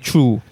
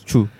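First: The 'ch' sound at the start is drawn out long. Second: The 'ch' sound at the start is kept short. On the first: The speaker calls it wrong. "I always feel like I say true. You know, the true, very, the ch, very long" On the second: The speaker calls it right. "But actually, it's true. Yeah, true. It's shorter"

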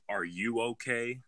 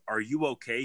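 First: It sounds strange and eerie. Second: It sounds normal and caring.

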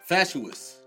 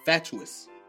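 First: The middle consonant is a plain t sound. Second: The middle consonant is a ch sound. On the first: The speaker calls it wrong. "It's a CH" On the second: The speaker calls it right. "It's closer"

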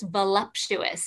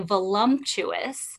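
First: The word is said with no M sound. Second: An extra M sound is put into the word. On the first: The speaker calls it right. "So it's just voluptuous. ... leave your mouth without an M" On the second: The speaker calls it wrong. "Cover your ears when I say this. But most people say voluptuous and there's no M in there"

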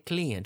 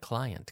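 First: The first vowel sounds like 'ee'. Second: The first vowel sounds like 'eye'. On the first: The speaker calls it wrong. "We don't say client" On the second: The speaker calls it right. "we say cli. Como ojo, I"

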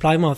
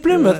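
First: The first syllable sounds like 'ply' in plywood. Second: The first syllable does not sound like 'ply'. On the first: The speaker calls it wrong. "like plywood" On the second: The speaker calls it right. "Is that how you pronounce it"

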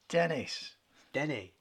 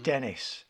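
First: The name ends without an s sound. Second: The name ends with an s sound. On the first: This follows the French-Canadian way of saying the name. "that's how he pronounces it because he's French-Canadian" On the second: This follows the English way of saying the name. "we pronounce it because we're English"

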